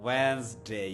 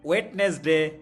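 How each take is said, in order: First: The first 'd' and middle vowel are dropped. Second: The first 'd' and middle vowel are pronounced. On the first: "এক্সিলেন্ট" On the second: "আমরা বলি"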